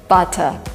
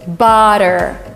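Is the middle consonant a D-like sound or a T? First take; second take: T; D-like. First: The middle consonant is a clear T. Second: The middle consonant sounds like a D. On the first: This is the British pronunciation. "not butter. ... if you want to sound more British" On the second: This is the American pronunciation. "double T, it is substituted by D"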